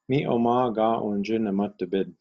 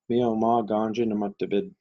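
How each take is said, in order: First: The two vowels are kept apart in full syllables. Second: The two vowels merge into one shortened syllable. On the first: "they wouldn't sound like" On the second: "They would sound more like"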